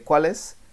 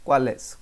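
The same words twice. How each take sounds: First: The two words run together as one. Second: The same.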